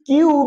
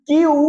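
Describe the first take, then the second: Both takes have the same delivery.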